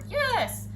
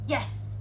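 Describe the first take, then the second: First: It is said loudly, like a scream. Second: It is said in a calm, ordinary tone. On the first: The speaker calls it wrong. "screaming yes" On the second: The speaker calls it right. "you just say yes in the same to- tone of voice as you would um, as you would be saying it out and about"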